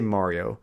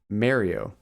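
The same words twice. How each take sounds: First: It is said the speaker's usual, non-Canadian way. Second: It is said the way Canadians say it. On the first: "I say Mario" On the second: "I think in Canada they say Mario"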